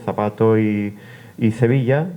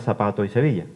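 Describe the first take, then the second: First: Both the z and the s sound like th. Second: Both the z and the s sound like s. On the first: "donde se cecea" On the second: "donde se sesea"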